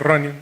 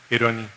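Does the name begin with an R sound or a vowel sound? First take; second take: R sound; vowel sound. First: The name begins with a plain R sound. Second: The name begins with a vowel before R. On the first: "no me dice Ronnie" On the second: "los checos no pueden pronunciar la R, me decía Eroni"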